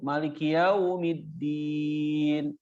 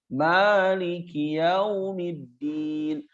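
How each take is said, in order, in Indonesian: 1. Vokal pertama dibaca pendek. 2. Vokal pertama dibaca panjang. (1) "Jadi pendek" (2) "Harusnya Maliki yaumiddin di surat Al-Fatihah maknya panjang"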